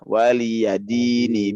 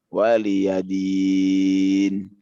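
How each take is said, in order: First: The word ends on a short vowel. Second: The word ends on a held consonant. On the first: The reading continues into the next verse. "kalau nggak disambung dia waliyadini" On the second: The reading stops at this word. "arid disukun ya"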